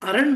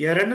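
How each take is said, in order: First: The word begins with an 'a' sound. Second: The word begins with an 'e' sound. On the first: The word is said on its own. "అరణ్ మీరు పలికింది కరెక్టే" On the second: The word is read as part of the full line. "పూర్తి లైన్లో చదువుతున్నప్పుడు ఎరణ్ అని పలకాలి"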